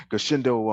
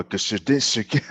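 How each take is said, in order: First: Said in the usual way. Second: "Goshindu" stumbled over slowly, syllables tangled; tongue-tied stumble. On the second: Real, not acted. Host fumbling guest's style name "Goshindu", tongue-tied. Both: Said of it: "I can't even say him".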